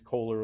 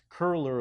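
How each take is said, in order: First: The name has an American 'oh' vowel. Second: The name has a German rounded front vowel. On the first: The speaker calls it wrong. "the bastardized American way of saying it is Kohler illumination" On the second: The speaker calls it right. "it's actually pronounced curler illumination"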